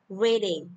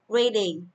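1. Trọng âm rơi vào âm tiết thứ nhất. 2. Trọng âm rơi vào âm tiết thứ nhất.

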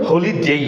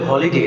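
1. শেষ উচ্চারণাংশটি একটি 'ei' glide দিয়ে শেষ হয়। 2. শেষ উচ্চারণাংশটি একটি সাধারণ 'e' স্বরধ্বনি দিয়ে শেষ হয়। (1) "হলিডেই হবে।" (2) "এটা কি শুদ্ধ না ভুল? ভুল।"

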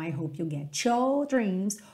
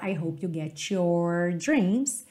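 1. O r no final de your é omitido. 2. O r no final de your é enrolado. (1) "cho, cho" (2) "chore, com a língua enrolada no sotaque americano"

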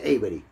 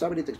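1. El nombre se pronuncia con pronunciación inglesa. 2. El nombre se pronuncia con pronunciación española. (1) "Se pronuncia Avery" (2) "yo lo he castellanizado"

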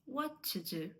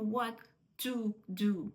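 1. Слово 'to' має короткий голосний шва. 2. Слово 'to' має повний, чіткий голосний. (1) "А to do, what to do" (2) "не кажемо what to do"

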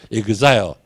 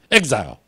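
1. 这个词是用日式口音说的。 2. 这个词是用美式口音说的。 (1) "日本发音发成是exile" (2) "正确的美国发音是exile"

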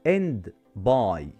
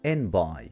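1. يُنطق الـ d في آخر 'end'. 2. الـ d في آخر 'end' يُحذف.

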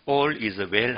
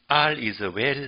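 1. 첫 번째 단어는 'all'처럼 들려요. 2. 첫 번째 단어는 'are'처럼 들려요. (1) "발음상 All is well 하지 않고요" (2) "인도에서는요, R이라고 하더라고요. 알 is well이라고 발음을 하더라고요"

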